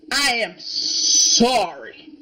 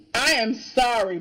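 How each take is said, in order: First: "I am sorry" drawn out slowly, each word stretched; slow mock apology. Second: Said in the usual way. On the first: Shown as a demonstration.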